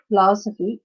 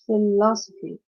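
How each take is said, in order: First: The stress falls away from the second syllable. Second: The stress falls on the second syllable. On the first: The speaker calls it wrong. "it's not philosophy" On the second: The speaker calls it right. "the stress is on the second syllable"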